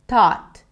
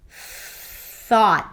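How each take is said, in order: First: The first sound is a stop, like T. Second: The first sound is a soft hissing TH. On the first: The speaker calls it wrong. "Because I blocked the air, it actually sounded more like a T sound than a T H" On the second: The speaker calls it right. "Now that my tongue is out, the sound is different"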